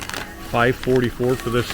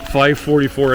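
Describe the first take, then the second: First: "Five forty-four" said again slowly and softly, each word clear; slow down and get "Five forty-four" right this time; careful correction. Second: Said in the usual way. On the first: Real, not acted. Shopper fixing a fumbled price for viewers, slow and careful. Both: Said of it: "I can't even say it right".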